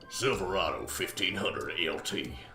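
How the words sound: It is said in a put-on announcer voice.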